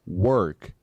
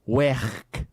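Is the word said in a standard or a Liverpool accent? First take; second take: standard; Liverpool. First: It is said in a standard English accent. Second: It is said in a Liverpool accent.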